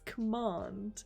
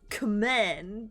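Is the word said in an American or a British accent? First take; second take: British; American. First: It is said in a British accent. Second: It is said in a non-British accent. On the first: The speaker calls it right. "it's command" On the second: The speaker calls it wrong. "it's not command"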